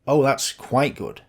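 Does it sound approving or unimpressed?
unimpressed. It sounds lukewarm, meaning less than good.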